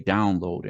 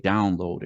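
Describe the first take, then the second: First: It is said with an American accent. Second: The same.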